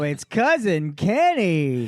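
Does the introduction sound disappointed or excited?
excited. It sounds lively and excited, with more energy. The speaker calls it right. "I'm trying to get excited about you"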